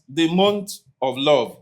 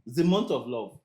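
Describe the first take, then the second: First: Love is said plainly, without feeling. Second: Love is said gently and softly. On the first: "You don't say love like that" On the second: "we want to make it softer now"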